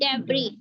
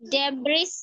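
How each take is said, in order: First: The word ends on a vowel, s silent. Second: The word ends with an audible s sound. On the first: The speaker calls it right. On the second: The speaker calls it wrong.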